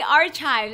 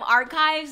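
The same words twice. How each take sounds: First: It is pronounced with a Spanish-influenced accent. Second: It is pronounced with a standard English accent. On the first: This is how the speaker naturally says it. "I say archives ... I'm trying to read it like a Mexican reads" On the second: This is how the word is usually said. "instead of archives"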